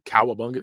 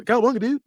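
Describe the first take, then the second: First: Said in the usual way. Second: Much higher surfer dude call; cartoon surfer cry. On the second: Shown as a demonstration. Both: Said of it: "Nobody talks like this".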